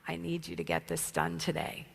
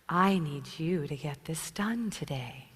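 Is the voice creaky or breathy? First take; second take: creaky; breathy. First: The voice is creaky and crackling, with vocal fry. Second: The voice is breathy, low, slow and softer. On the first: "this idea of glottal fry, which is what you heard me come out doing" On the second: "In a sexy voice"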